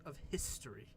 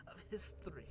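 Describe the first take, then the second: First: Said in the usual way. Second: Hushed, whispered reverence; soft, voiceless stage whisper; whispered echo. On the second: Acted. Whispered echo of the grand line.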